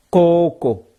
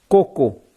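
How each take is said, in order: First: "coco" drawn out, falling; long vowel. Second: "coco" said short and clipped; short vowel. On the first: Teacher showing students the long vowel in "coco". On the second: Teacher contrasting short "coco" for students. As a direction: keep "coco" brief. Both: Shown as a demonstration. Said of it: "Voyelle longue".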